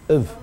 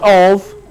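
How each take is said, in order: First: The vowel is reduced to a weak schwa. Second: The vowel is full and clearly pronounced. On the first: The speaker calls it right. "The other sounds are all uh" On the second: The speaker calls it wrong. "Not of"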